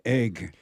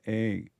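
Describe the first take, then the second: First: The final g sound is pronounced. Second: The final g sound is dropped.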